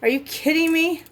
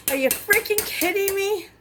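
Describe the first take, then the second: First: Said in the usual way. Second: High, incredulous cry of frustration; can't believe the thermometer broke; exasperated disbelief. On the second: Real, not acted. Thermometer broke, recipe ruined.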